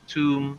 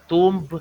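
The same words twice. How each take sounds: First: The final B is left silent. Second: The final B is pronounced aloud. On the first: The speaker calls it right. "All of these should be silent B" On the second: The speaker calls it wrong. "it's not tomb"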